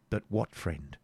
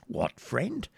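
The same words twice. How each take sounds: First: Said in the usual way. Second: "What friend" swept up very high at the end; echoed question. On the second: Acted. Hermit echoes the knight's question.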